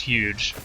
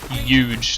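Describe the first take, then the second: First: The word starts with a plain H sound. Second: The word starts with a Y sound.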